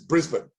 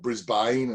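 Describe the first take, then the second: First: The name is said short and quick. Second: The name is drawn out and stretched. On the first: The speaker calls it right. "Just quick, short, tight. Don't don't stretch it" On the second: The speaker calls it wrong. "as a lot, a lot of people want to say"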